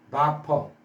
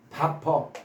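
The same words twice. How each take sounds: First: The first vowel sounds like 'ah', as in 'bah-per'. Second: The same.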